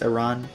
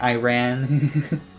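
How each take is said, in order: First: It does not sound like 'I ran'. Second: It sounds like the English words 'I ran'. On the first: The speaker calls it right. "the pronunciation is Iran" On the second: The speaker calls it wrong. "People mocking our Iran, calling it Iran"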